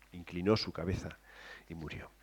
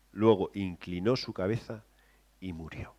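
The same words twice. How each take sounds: First: Softer telling. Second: Soft telling. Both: Shown as a demonstration. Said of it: "lo suaviza un poquito más".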